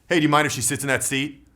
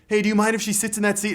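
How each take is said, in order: First: It sounds even and neutral, neither hard nor pleading. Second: It sounds pleading and seeking approval.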